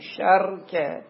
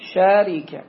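First: Open a after sh, no vowel after r. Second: Open a after sh, i after r. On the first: "قول ثالث هم أكو، شركة بس قليل" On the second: "بفتح الشين فكسر الراء"

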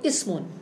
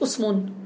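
First: The word begins with an 'i' vowel. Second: The word begins with a 'u' vowel. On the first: This is the original, standard form. The speaker calls it right. "هي الأصل تقول اسم" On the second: This is a weak dialect form. The speaker calls it wrong. "مش اسم"

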